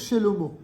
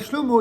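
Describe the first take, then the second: First: A short vowel separates the first two consonants. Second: The first two consonants run together without a vowel. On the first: This is the grammatically correct pronunciation. The speaker calls it right. "il va pas vous dire Shelomo" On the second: This is the everyday street pronunciation. The speaker calls it wrong. "il vous dira Shlomo"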